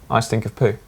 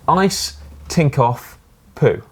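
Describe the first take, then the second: First: The phrase is said quickly, run together. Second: The phrase is read out at normal speed.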